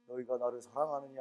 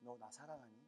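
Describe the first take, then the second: First: It is said in a stern, solemn voice. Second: It is said in a warm, tender voice.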